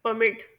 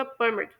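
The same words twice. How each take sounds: First: permit as a verb, per-MIT; verb stress. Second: permit as a noun, PER-mit; noun stress. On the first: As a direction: stress the second syllable of permit. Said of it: "verb के तौर पर होगा". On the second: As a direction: stress the first syllable of permit. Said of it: "noun के तौर पर होगा". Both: Shown as a demonstration.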